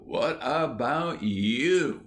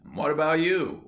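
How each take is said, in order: First: Slow, drawn-out what about you; a boy rubbing it in, slowly; drawn-out taunt. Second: Higher and louder, what about you; a boy turning the blame around, higher and louder; indignant retort. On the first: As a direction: stretch each word of what about you. Ginger repeats retort. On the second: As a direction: fling what about you back at him. Ginger retorts. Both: A narrator's reading.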